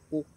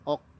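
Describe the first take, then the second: First: The vowel is a full rounded u. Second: The vowel is not a full rounded u. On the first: The speaker calls it right. "harus disempurnakan u-nya" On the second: The speaker calls it wrong. "jangan ok"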